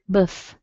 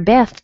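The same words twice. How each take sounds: First: The syllable has a weak, reduced vowel. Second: The syllable has a full, clear vowel. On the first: "You hear Beth" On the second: "you don't really hear Beth"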